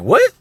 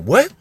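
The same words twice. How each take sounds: First: "What?" flung up very high and loud, near a shriek; even more shocked what. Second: Sharp high stunned "What?", loud; shocked what. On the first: Brother hearing it again, now fully incredulous. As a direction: total outraged disbelief, peaking. Hears sister taken from school. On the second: Brother told at school his sister was taken, stunned. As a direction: blurt it out in disbelief. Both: Retold or imitated.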